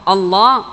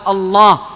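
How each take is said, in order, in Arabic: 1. صوت اللام مفخّم وثقيل. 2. صوت اللام مفخّم وثقيل.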